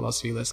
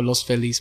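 First: The name is pronounced with English sounds. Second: The name is pronounced with Spanish sounds. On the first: "people there call it Los Feliz because puro gringos" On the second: "or Los Feliz"

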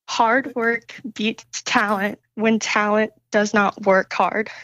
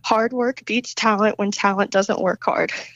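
First: It is said slowly. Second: It is said at normal speed.

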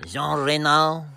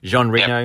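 First: It is said in a put-on French accent. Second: It is said in a plain English accent.

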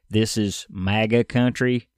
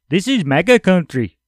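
First: It is said in a plain American accent. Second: It is said in an Indian-sounding accent.

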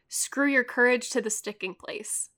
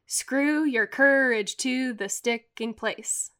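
First: The line is read with a natural speech rhythm. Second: Syllables alternate weak and strong in a steady beat.

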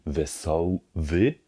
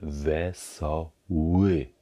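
First: Both the first and last consonants are German w-sounds. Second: Only the first consonant is a German w-sound. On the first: The speaker calls it wrong. "Es ist also kein Wesoły, also zweimal W-Laut" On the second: The speaker calls it right. "sondern einmal Wesoły"

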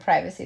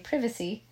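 First: It is said with an American pronunciation. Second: It is said with a British pronunciation.

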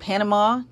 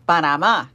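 First: Panama is said with an American English accent. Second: Panama is said with a Spanish accent.

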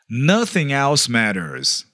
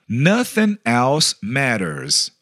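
First: It is said at normal speed. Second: It is said slowly.

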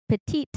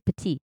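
First: The final T sound is clearly pronounced. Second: The word ends without a T sound. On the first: It refers to a female. "you emphasize the T at the end, it's for feminine" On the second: It refers to a male. "you wouldn't say the T at the end"

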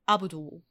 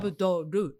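First: The name ends with a plain 'l' sound. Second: The name ends with an added 'ru' syllable. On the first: This is how the name is said in English. "rather than Abdul" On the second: This is how the name is said in Japanese. "because we pronounce the lots of syllable"

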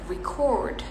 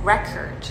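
First: The stress is on the second syllable. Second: The stress is on the first syllable. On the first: It is a verb meaning to record. "merekam gitu" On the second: It is a noun. "tekanannya di awal, record gitu"

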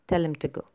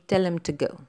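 First: Him and to are said reduced and unstressed. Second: The same.

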